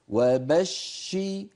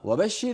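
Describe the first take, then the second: First: The doubled sh sound is held for two beats. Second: The doubled sh sound is snatched and short. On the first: The speaker calls it right. "بدك زمنين" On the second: The speaker calls it wrong. "وين الزمنين؟"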